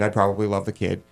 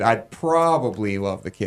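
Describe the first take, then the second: First: The word probably is said lightly, without emphasis. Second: The word probably is said with strong emphasis. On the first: It is a casual, normal thing to say. "which is not the way I said it" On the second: Loving the kid sounds doubtful. "he puts the emphasis on probably"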